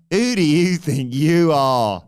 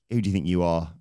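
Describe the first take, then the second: First: Very loud, high and drawn-out yell; outraged shout. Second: Said in the usual way. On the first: Acted. Wrestler challenging a rival who questioned him, outraged bellow. Truth's retort repeated as a shout.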